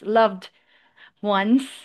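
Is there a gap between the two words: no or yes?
yes. A short hesitation separates the two words. The speaker calls it wrong.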